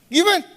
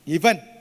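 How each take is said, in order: First: It is said at a high pitch. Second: It is said at a slightly raised pitch.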